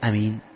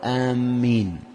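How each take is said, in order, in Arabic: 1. الصائت الأول قصير؛ والميم مفردة. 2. الصائت الأول طويل؛ والميم مشدّدة. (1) "لا يقول أمين، يتغير المعنى" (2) "ولا يقول آمين، يتغير المعنى، يعني آمين معناها قاصدين"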